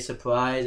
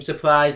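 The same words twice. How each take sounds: First: It is said flatly without emphasis. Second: It is shouted loudly with emphasis.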